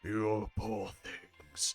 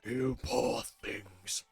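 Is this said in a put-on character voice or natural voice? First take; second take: natural voice; character voice. First: It is said in the speaker's own natural voice. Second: It is said in a strained put-on character voice. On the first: "I need to stop doing the Demon King's voice" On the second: "I'm gonna have to stop doing that that voice"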